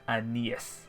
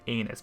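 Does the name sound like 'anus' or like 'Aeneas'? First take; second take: Aeneas; anus. First: The name is pronounced as 'Aeneas'. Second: The name sounds like the word 'anus'. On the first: This is the official name. The speaker calls it right. "the proper pronunciation is Aeneas" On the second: This is the joking name everyone uses. The speaker calls it wrong. "everyone calls it Anus"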